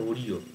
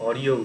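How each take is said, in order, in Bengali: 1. এটা 'o' দিয়ে শুরু হয় আর 'o' দিয়ে শেষ হয়। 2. এটা 'aw' দিয়ে শুরু হয় আর 'ya' দিয়ে শেষ হয়। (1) "অনেকেই বলবে এটা ওরিও" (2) "পালিতে অরিয় হয়"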